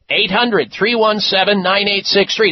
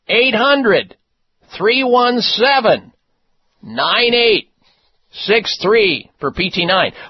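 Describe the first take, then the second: First: The number is said fast. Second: The number is said slowly.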